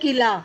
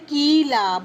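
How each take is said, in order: First: The first vowel is short and quick. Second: The first vowel is drawn out long. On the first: The speaker calls it right. "ये correct होगा क्योंकि हम बोलते हैं किला" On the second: The speaker calls it wrong. "ये wrong है, but मात्रा हमारी खींच गई है"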